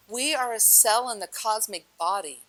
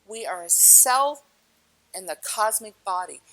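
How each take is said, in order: First: Said in the usual way. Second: We are a cell, slow and weighted, with a pause before in the cosmic body; slow, emphatic restatement. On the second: Shown as a demonstration. Repeating the point to the audience, slow and emphatic. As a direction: lean on cell, then pause. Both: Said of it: "repeated for emphasis".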